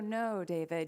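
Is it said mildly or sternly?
mildly. It is said mildly, without force.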